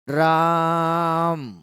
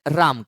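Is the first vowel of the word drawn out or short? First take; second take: drawn out; short. First: The first vowel is drawn out very long. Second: The first vowel is short and plain. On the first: "र को लंबा खींचेंगे तब जाकर के मां बोलेंगे" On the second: "ये तो पुकारा सीधा हमने राम कहकर"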